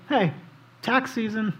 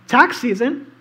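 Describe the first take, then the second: First: Said in the usual way. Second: "Tax season?" asked with a rising, louder lift; mock disbelief at the word "Tax"; incredulous question. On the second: Preacher voicing the leaders' tax question, mock incredulous.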